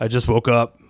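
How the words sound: It is said in a put-on imitating voice. "like if I'm talking in her voice"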